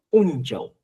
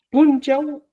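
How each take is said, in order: First: "unchau" starting straight on the U; pronounced without P. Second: "Punchau" pitched high, with a popped P; pronounced with initial P. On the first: Teacher showing another variant, "unchau" without P. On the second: Teacher showing one variant, "Punchau" with P. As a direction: sound the P clearly in high "Punchau". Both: Shown as a demonstration. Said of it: "Algunos dicen".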